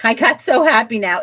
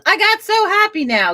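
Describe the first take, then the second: First: Said in the usual way. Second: High, bubbly imitation of a happy viewer; imitating Isabella. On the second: Host reading a viewer's comment aloud in a high excited voice. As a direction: read the line back pitched up and delighted. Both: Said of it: "Isabella goes".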